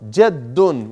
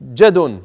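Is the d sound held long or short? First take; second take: held long; short. First: The d sound is doubled and held long. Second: The d sound is short and single. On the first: The speaker calls it right. "You have to two seconds on the dal" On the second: The speaker calls it wrong. "don't say Jadun"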